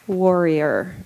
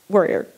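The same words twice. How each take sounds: First: The word is said slowly. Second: The word is said quickly. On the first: "I just have to do it slow" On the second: "Say it fast"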